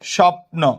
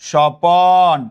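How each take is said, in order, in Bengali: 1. 'প' ও 'ন' ধ্বনি মিলে একটি যুক্তব্যঞ্জন গঠন করে। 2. 'প' ও 'ন'-এর মাঝে একটি স্বরধ্বনি বসানো হয়। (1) "স্বপ্ন থেকে" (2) "বললাম স্বপন"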